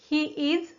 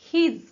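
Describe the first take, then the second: First: It is said as two full separate words. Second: It is said as one contracted syllable.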